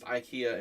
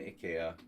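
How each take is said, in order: First: It is said the American way. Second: It is said the Swedish way. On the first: "in the United States" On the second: "in Sweden"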